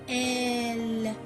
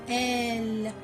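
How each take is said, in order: Both takes have the same delivery.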